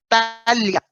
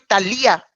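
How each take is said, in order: First: The i does not carry the stress. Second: The i carries the stress. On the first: The speaker calls it right. "El mío no tiene acento" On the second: The speaker calls it wrong. "yo no soy Talía"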